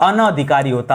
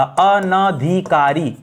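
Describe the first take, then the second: First: Said in the usual way. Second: अनाधिकारी drawn out syllable by syllable, slowly; slow careful spelling-out. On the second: Shown as a demonstration. Teacher to students, dictating the word slowly, syllable by syllable. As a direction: sound out अनाधिकारी very slowly for the class. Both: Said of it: "इसी तरह से अनाधिकारी नहीं होगा".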